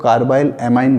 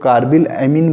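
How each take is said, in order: First: Carbyl amine ending like "mine"; long-eye variant. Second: Carbyl amine ending in "min"; short-i variant. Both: Shown as a demonstration. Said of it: "कुछ लोग carbyl amine बोलते हैं".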